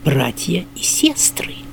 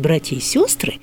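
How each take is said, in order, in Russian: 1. Ударный гласный в sestry звучит как 'e'. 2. Ударный гласный в sestry звучит как 'o'. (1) "Вообще-то говоря" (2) "сегодня священники говорят «братья и сестры»"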